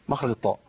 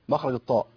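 Both takes have the same delivery.

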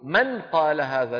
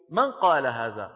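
First: The n is pronounced clearly before the q. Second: The n is hidden, gliding straight into the q. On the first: The speaker calls it wrong. "لا يقرع بلسانه حرف النون" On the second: The speaker calls it right. "من الميم إلى القاف على طول"

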